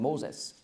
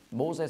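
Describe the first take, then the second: First: "Moses" closed with an s; "Moses", ending in a hissed -es; Greek-style final S. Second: "Mose" ending on an open e; "Mose", two syllables, vowel-final; without final S. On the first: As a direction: say "Moses" with the s added after the e. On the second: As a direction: say "Mose" with no s at the end. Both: Shown as a demonstration. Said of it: "noch ein S anhängen".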